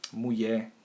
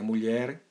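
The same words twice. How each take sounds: First: The lh sound changes and the r drops. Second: The lh sound and final r are pronounced. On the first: "a transformação do L H... o R também é suprimido" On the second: "que seria mulher"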